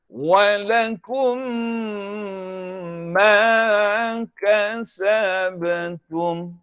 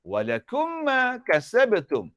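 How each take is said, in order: First: The m sound is held long and nasalized. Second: The m sound is short and not held. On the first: The speaker calls it right. "Mesti didengungkan mim ni selama dua harakat" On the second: The speaker calls it wrong.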